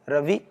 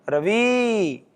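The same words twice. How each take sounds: First: The final vowel is kept short. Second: The final vowel is drawn out long. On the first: The word is simply named. "रवि में तो इकार छोटा है" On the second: Someone far away is being called. "दूर है तो उसको बुलाते हैं"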